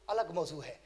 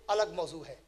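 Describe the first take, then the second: No difference in how they are said.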